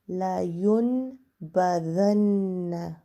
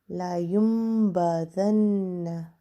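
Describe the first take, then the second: First: An n sound is heard before the b. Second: An m sound is heard before the b. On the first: "Without the meme" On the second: "With the meme"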